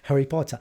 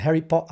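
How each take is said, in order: First: A British accent with the t sounded. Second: A stronger British accent with the t dropped. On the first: "Gostaram do sotaque britânico?" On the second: "Ou o sotaque mais britânico ainda, não pronunciam o T"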